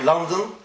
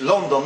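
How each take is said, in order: First: "London" as LUN-den; English pronunciation. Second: "London" as LON-don; rounded O in "London"; Yiddish pronunciation. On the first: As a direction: open short first vowel in "London". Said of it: "how you say it in English". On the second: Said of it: "how they say it in Yiddish". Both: Shown as a demonstration.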